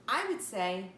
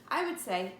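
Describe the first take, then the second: The two takes are said the same way.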